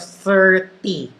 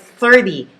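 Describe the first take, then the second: First: The t is a crisp, clear t sound. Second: The t sounds like a soft d. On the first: The speaker calls it wrong. "instead of thirty" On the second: The speaker calls it right. "like T H I R D Y"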